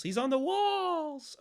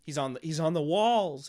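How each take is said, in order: First: High, slow, drawn-out teasing; high sing-song. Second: Said in the usual way. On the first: Acted. Repeats where the monster is.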